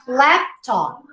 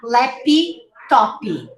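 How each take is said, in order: First: The final stops are barely heard, no added vowel. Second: An extra vowel follows each stop consonant. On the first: The speaker calls it right. "these final stops, you almost don't hear them" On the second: The speaker calls it wrong. "not lappy toppy"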